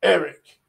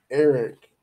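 First: Higher, louder urgent hiss. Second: Said in the usual way. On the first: A narrator's reading. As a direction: hiss the name like a warning. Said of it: "hissed the voice of Spar".

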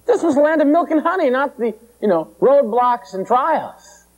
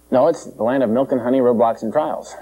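First: High, whining panicked complaint, slowing on the end; mock panic. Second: Said in the usual way. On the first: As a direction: wail it like a crowd cheated of its promise. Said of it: "they were ranting and raving".

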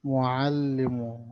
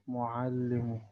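First: معلم said very slowly with a clear ain. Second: Said in the usual way. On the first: Shown as a demonstration. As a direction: stretch معلم around the ain. (نطق العين ببطء)

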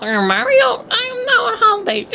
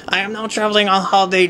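First: High, sweet cartoon princess; Princess Peach voice. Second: Said in the usual way. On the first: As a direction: coo it like a storybook princess. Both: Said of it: "I shouldn't be doing Princess Peach's voice".

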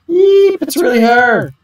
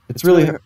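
First: High, excited fangirl squeal; starstruck fan squeal. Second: Said in the usual way. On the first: Acted. Fan spotting her idol Risa, high excited squeal. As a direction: squeal with delight at seeing your idol.

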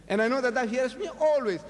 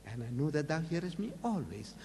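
First: Louder and higher, proclaimed for the crowd; said out loud so the people believe; loud public prayer. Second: Said in the usual way. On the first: Shown as a demonstration. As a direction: announce it so the bystanders hear. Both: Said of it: "talking loudly that they may know".

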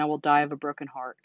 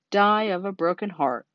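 First: Understated, sincere plea; mild desperation. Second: Exaggerated sneering echo; mocking mimicry. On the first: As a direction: plead earnestly, voice sinking. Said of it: "said Wilbur in desperation". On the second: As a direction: mimic the plea with mock pathos. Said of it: "he mimicked". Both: A narrator's reading.

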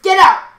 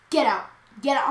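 First: Loud, high yell of an angry teacher; sudden imitated shout; raised voice. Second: Said in the usual way. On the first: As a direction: bark it out, imitating a furious teacher. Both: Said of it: "raised her voice at me".

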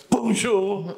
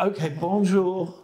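First: Pointed bonjour. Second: Slow, reluctant "Okay, bonjour."; grudging bonjour. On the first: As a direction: correct them with a mocking "Bonjour,". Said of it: "they go". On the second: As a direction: drag out a grudging "bonjour" as if giving in. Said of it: "And you go". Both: Retold or imitated.

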